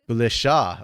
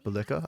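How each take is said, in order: First: The last syllable starts with a sh sound. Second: The last syllable starts with a k sound. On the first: The speaker calls it right. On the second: The speaker calls it wrong. "I was wrong both ways"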